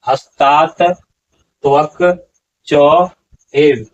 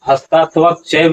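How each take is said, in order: First: Each word is said separately and distinctly. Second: The words are run together as one. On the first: The speaker calls it right. "यहाँ पर उच्चारण होगा" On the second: The speaker calls it wrong. "नहीं होगा"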